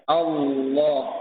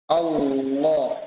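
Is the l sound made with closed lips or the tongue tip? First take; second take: tongue tip; tongue tip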